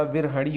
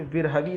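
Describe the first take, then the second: First: विरहणी ending in a flapped "ṛi"; retroflex final syllable. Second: विरहवी with a misread last syllable; wrong final consonant. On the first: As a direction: curl the tongue on the end of विरहणी. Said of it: "विरहवी नहीं होता". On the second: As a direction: give विरहवी as the faulty form. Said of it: "विरहणी होता है". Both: Shown as a demonstration.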